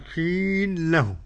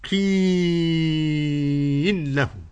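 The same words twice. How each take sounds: First: The long vowel is held only briefly. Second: The long vowel is held for a medium length. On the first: "خصر" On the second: "توسط"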